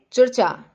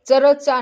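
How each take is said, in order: First: चर्चा in two syllables, "char-cha"; correct half R. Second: चर्चा broken up as "cha-ra-cha"; wrongly split word. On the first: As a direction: join र tightly to the second च in चर्चा. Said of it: "इसको बोलेंगे चर्चा". (चर्चा में र आधा बोलें) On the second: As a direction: give र a full vowel in चर्चा. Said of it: "ये चर्चा नहीं बोलेंगे". (चर्चा को गलत "चरचा" बोलें) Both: Shown as a demonstration.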